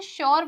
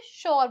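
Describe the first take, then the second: First: "श्योर" with a y-glide after sh; "श्योर" with a clear य sound inside; alternative pronunciation. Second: "श्योर" said as plain shor; "श्योर" with sh straight into the vowel; alternative pronunciation. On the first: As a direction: say "श्योर" as sh-yor. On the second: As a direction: drop the y-glide from "श्योर". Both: Shown as a demonstration. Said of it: "इसे दो तरीके से बोल सकते हैं".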